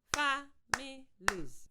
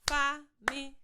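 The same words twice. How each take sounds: First: Families stretched slowly, fa-mi-lies; slow syllable clapping. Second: Said in the usual way. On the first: Shown as a demonstration. Teacher modelling for pupils: slow syllable-clapped Families. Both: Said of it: "Listen first".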